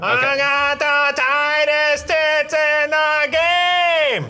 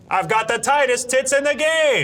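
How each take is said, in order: First: It is said slowly with a warbly voice. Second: It is said at normal speed, clearly.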